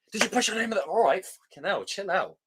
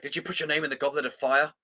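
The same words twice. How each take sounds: First: High, rushed, nothing calm about it; frantic Dumbledore. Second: Said in the usual way. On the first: Retold or imitated. Mocking the film's Dumbledore, high and frantic. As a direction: ham up an agitated headmaster. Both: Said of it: "Dumbledore said calmly".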